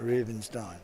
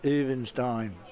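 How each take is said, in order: First: The name starts with an R sound. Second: The name starts without an R sound. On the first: The speaker calls it wrong. "Not Rubenstein" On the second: The speaker calls it right. "The silent R"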